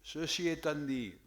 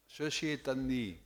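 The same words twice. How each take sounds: The two takes are said the same way.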